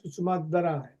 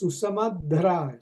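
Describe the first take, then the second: First: The word is said as one joined whole. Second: The word is split into two parts. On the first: "when you bring the two together" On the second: "you break into two sounds"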